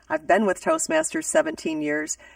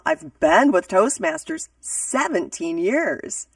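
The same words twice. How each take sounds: First: It is said plainly, with little vocal inflection. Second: It is said dramatically, with lively excited inflection. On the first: The speaker calls it wrong. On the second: The speaker calls it right.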